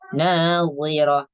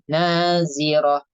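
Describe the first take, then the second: First: The middle consonant sounds heavy and emphatic. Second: The middle consonant sounds light, like plain z. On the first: The speaker calls it right. "Dibacanya tebal" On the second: The speaker calls it wrong. "kalau misalnya dibaca tipis itu nazirah. Kayak huruf zai"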